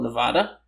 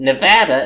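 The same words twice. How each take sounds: First: Nevada is said with a Spanish-style pronunciation. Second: Nevada is said with an English-style local pronunciation. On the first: This is how the word would be said in Spanish. "how you would pronounce it if you were pronouncing the Spanish word" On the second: This is how the people who live there say it. "they prefer to call it Nevada"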